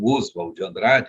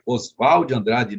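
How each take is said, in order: First: Oswald has the stress on its first syllable. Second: Oswald has the stress on its last syllable. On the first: The speaker calls it wrong. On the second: The speaker calls it right.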